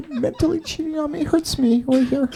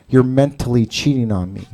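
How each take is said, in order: First: High, small, hammed-up hurt voice; mock wounded girlfriend. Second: Said in the usual way. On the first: Mocks the offended ex, hurt.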